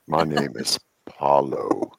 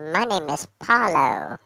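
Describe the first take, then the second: First: It is said in a low, heavy voice. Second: It is said in a high voice.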